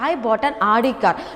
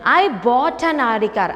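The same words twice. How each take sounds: First: The stress is on "Audi". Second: The stress is on "bought".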